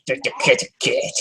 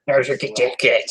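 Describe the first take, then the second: First: Whispered. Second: Said in the usual way. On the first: Real, not acted. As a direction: breathe "kitty cat" as a hush. Repeated line to cat.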